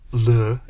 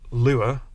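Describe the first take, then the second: First: The word is said in a posh accent. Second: The word is said in a plain accent.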